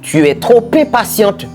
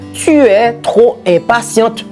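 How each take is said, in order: First: The words run together like a single word. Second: Every word is pronounced fully and separately. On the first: "C'est comme si c'était un seul mot" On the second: "on est capable de dire tout"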